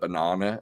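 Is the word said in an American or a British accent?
British. The word is said with a British accent. "instead of banana"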